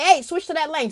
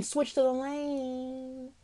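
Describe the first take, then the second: First: Raised, higher warning voice; urgent inner warning. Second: Very slow, softer echo; drawn-out warning. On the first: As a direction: call out a sudden instruction. Voices an inner warning while driving. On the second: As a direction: stretch the warning out slowly. Repeats inner warning, drawn out. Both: Acted.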